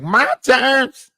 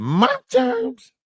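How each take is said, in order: First: Mock Maggie voice. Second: Very high, squeaky imitation of her; squeaky mock Maggie. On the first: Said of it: "She was like". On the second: Comic mocks Maggie's high squeaky claim. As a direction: squeak it out like a cartoon kid. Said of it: "Maggie said".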